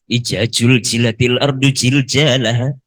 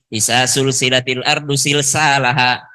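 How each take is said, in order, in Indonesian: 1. Setiap bunyi z dilafalkan sebagai j. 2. Setiap bunyi z dilafalkan sebagai s. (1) "Jadi J semua" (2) "Orang Sulawesi itu jadi es semua"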